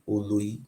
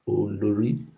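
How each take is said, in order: First: The word is said without an r sound. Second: The word is said with an r sound. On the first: "the wife of the Oba of Benin are called Oloi" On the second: "The original pronunciation is Olori"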